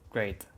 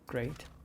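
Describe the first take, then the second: First: It is said sarcastically, not meaning good. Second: It is said sincerely, meaning really good.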